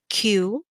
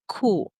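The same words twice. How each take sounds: First: The letter is said the English way. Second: The letter is said the German way. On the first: The speaker calls it wrong. "Instead of saying Q" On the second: The speaker calls it right. "we say Q"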